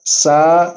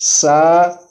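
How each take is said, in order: First: The consonant has a sharp whistling hiss. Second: The consonant has a sharp whistling hiss.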